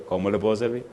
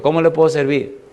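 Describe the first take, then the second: First: Soft, toned-down repeat of the question; subdued phone enquiry. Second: Higher-pitched courteous question; polite phone enquiry. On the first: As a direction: ask quietly, holding back. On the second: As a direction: lift the voice to offer help on the phone. Polite first question to caller. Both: Retold or imitated.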